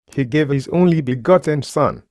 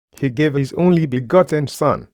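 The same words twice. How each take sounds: The two takes are said the same way.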